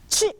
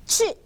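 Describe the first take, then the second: First: Said in the usual way. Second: 취 dropping hard from very high; exaggerated falling tone on 취; sharp falling fourth tone. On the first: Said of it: "저는 취 하지만 여러분은". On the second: Shown as a demonstration. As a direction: snap 취 down like a waterfall. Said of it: "이렇게 하셔야죠".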